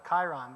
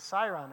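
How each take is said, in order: First: The word begins with a hard K sound. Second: The word begins with a soft S sound. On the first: The speaker calls it wrong. "I have been mispronouncing it for 30 years. So I always thought it was a chyron" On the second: The speaker calls it right. "but it's a siron, according to Merriam-Webster"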